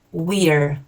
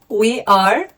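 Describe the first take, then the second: First: It is said as one contracted syllable. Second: It is said as two full words.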